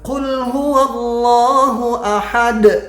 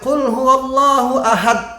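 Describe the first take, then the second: First: The final d has an audible echoing bounce. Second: The final d is cut off without bounce. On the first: The speaker calls it right. "ada pantulan" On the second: The speaker calls it wrong. "Nggak boleh"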